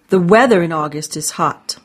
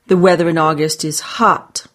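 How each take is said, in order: First: The stress is on the word weather. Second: The stress is on the word hot.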